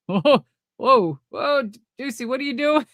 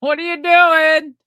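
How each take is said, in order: First: Higher, startled mock protest; imitated nervous alarm. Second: High, loud, drawn-out mock panic; imitated alarmed outcry. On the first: Sting reacting to an unplanned crawl, imitated nervous alarm. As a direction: imitate a partner caught off guard, pitched up. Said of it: "hear his nervous". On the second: Sting reacting to what was not planned, imitated alarmed outcry. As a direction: push it up high and loud, half laughing. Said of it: "that was a legit".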